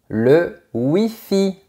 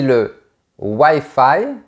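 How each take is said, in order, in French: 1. Le mot est prononcé avec un accent français. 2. Le mot est prononcé avec un accent anglais. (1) "on dira le Wi-Fi" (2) "beaucoup de gens ne te comprendront pas"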